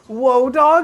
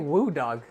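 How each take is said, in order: First: The first word sounds like 'whoa'. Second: The first word sounds like 'woo'. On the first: This is the pronunciation someone else gave. The speaker calls it right. "it's pronounced Whoa Dog" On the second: This is how the speaker has always said it. The speaker calls it wrong. "I always say Woo Dog"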